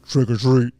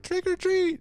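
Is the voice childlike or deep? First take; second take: deep; childlike. First: It is said in a deep manly voice. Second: It is said in a high childlike voice.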